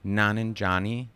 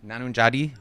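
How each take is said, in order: First: Nanunjani said slowly, with N in the last syllable; slow, deliberate retry of Nanunjani; corrected pronunciation. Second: Nanunjadi said with a D in the last syllable, questioning; unsure attempt at Nanunjadi, D for N; botched pronunciation. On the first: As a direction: sound out Nanunjani carefully, ending in -nee. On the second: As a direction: stumble on the name as Nanunjadi, ending in -dee. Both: Real, not acted. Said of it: "I fucked that one up".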